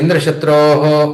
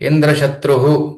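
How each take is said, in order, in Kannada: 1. ಕೊನೆಯ ಸ್ವರವನ್ನು ಉದ್ದವಾಗಿ ಎಳೆಯಲಾಗುತ್ತದೆ. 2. ಕೊನೆಯ ಸ್ವರವನ್ನು ಸಣ್ಣದಾಗಿ ಇಡಲಾಗುತ್ತದೆ.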